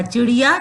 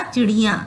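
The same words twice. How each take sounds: First: Said in the usual way. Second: "चिड़िया" with a nasal final आँ; nasalised plural ending. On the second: Shown as a demonstration. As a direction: send the last vowel of "चिड़िया" through the nose. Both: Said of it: "या पे चंद्र बिंदु लगा देंगे".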